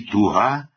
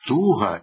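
First: It carries the adjective's stress placement. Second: It carries the noun's stress placement. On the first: It describes a quality. "прикметник" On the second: It names a feeling. "іменник"

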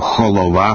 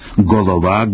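First: It starts with a harsh kh sound. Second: It starts with a hard stop g sound. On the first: "або «холова»" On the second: "казати «голова»"

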